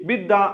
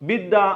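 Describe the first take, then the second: Both takes have the same delivery.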